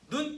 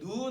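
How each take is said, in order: First: The vowel is said short. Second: The vowel is said long. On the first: It means the eye. "눈 이렇게 짧게 하면 사람 눈이에요" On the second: It means falling snow. "근데 눈 하면 내리는 눈이야"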